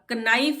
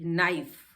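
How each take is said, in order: First: A k sound is heard at the start. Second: No k sound is heard at the start. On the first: The speaker calls it wrong. "अब कनाइफ नहीं बोलते हैं इसको" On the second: The speaker calls it right. "ये silent है"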